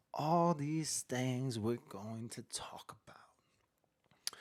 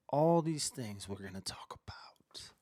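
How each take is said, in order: First: Very slow, drawn-out unvoiced whisper. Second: Unvoiced secretive whisper. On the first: Host teasing the jail story to the chat, slow whisper. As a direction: stretch each word in a breathy hush. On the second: Livestream host teasing the viewers, whispering. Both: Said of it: "You like my whisper?".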